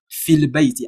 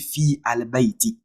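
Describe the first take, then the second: First: The vowel runs straight into the l sound. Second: A separate 'a' is sounded before the l. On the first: The speaker calls it right. "I will take the fi directly to the lam" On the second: The speaker calls it wrong. "I will not say fi al bayti"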